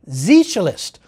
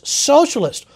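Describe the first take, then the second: First: It is said with a German pronunciation. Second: It is said with an English pronunciation.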